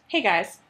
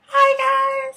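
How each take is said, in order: First: It is said in a normal, lower voice. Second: It is said in a very high voice.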